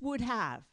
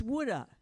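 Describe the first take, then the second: First: "would have" as two full words; "would have" crisp and separate; plain "would have". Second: "woulda" blended, wood-uh; "woulda" with the have dropped to uh. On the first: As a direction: say "would have" fully, wood have. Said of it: "Don't tell me it's". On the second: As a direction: run "woulda" together as one word. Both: Shown as a demonstration.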